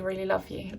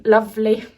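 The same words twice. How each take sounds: First: Said in the usual way. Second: Louder, a slight northern English lilt on lovely; hint of northern English accent. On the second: Shown as a demonstration. Tarot reader briefly slipping into a northern English accent. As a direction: let a touch of northern English accent slip in. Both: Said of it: "I almost did some kind of accent there".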